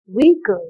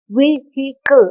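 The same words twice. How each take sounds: First: The middle h sound is not pronounced. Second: The middle h sound is clearly pronounced. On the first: The speaker calls it right. "You're not pronouncing that sound. So you're just pronouncing it as vehicle" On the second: The speaker calls it wrong. "You don't say vehicle"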